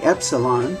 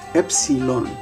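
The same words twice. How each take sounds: First: It is said the usual English way. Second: It is said the modern Greek way. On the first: "we say epsilon" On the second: "in modern Greek they will say um, epsilon"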